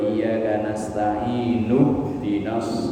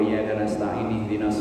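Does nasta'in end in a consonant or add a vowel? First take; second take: added vowel; consonant. First: The final n is followed by a u vowel. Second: The final n is closed with no following vowel. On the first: The speaker calls it right. "maka bacanya" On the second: The speaker calls it wrong. "salah. Cara bacanya salah"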